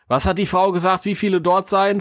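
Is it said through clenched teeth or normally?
normally. It is said in a normal, open voice.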